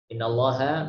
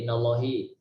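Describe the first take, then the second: First: The word ends with an a vowel. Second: The word ends with an i vowel.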